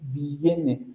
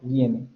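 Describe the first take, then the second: First: The i is a separate full vowel syllable. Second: The i glides quickly into the next vowel. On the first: The speaker calls it wrong. "no decimos vi, viene" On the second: The speaker calls it right. "decimos viene"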